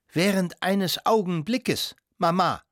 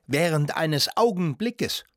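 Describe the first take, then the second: First: Higher-pitched, drawn-out protest; slow, affronted exclamation to her mother; indignant outcry. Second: Incredulous echo, drawn out and rising; slow, indignant questioning cry; indignant exclamation. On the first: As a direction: repeat the phrase in outrage, pitched up. Toni repeats her indignant cry. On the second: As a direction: throw the phrase back as an affronted question. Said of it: "rief Toni". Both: A narrator's reading.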